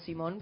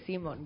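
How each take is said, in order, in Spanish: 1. El acento está en la última sílaba. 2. El acento está en la primera sílaba. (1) "La gente cree que yo me llamo Simón, pues, como el nombre" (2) "y es Simón"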